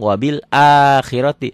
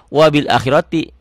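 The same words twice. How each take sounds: First: The first a in akhirati is held long. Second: The first a in akhirati is kept short. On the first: The speaker calls it right. "Berarti ini bunyinya A-nya panjang" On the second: The speaker calls it wrong. "akan baca wabil akhirati karena a-nya nggak ada pemanjangnya"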